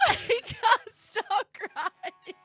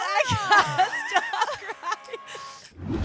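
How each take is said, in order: First: Half laughing, half crying, slow and high; crying and laughing at once; laughing through tears. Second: Mock crying. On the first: Real, not acted. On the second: Mimics [name]'s crying.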